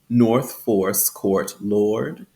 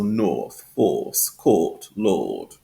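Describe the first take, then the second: First: The R sound after each vowel is pronounced. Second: No R sound; the vowels are lengthened instead. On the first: "in General American English, it's um, the R is pronounced" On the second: "inside the Standard British English and R P, we have um, that long R sound"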